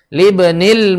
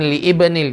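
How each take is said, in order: First: Li is joined smoothly into one word, libnil. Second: Li and ibnil are said as separate parts. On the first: The speaker calls it right. "Jadi disambung" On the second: The speaker calls it wrong. "jangan li ibnil, jangan"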